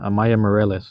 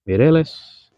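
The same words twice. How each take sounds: First: Moreles said as mor-EL-es, a first misreading of the name; first try at "Moreles", read off chat. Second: Mireles said as mir-EL-es, corrected and higher; corrected name. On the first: Misreading a viewer's name from chat, then a first try at it. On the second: Correcting a viewer's name after misreading it, then pitched up. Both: Shown as a demonstration.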